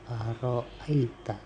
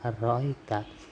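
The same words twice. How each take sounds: First: The word keeps both alif and glottal stop. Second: The word is said without the glottal stop. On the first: This is a third reciter's reading. "membacanya dengan alif dan hamzah" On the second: This is a second reciter's reading. "membaca tanpa hamzah"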